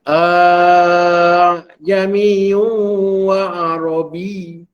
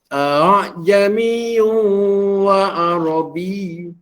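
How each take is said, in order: First: The opening vowel is drawn out very long. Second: The opening vowel is eased, said only halfway. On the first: The speaker calls it wrong. "Dia tak boleh di a tu dipanjang ya" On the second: The speaker calls it right. "Separuh-separuh ya"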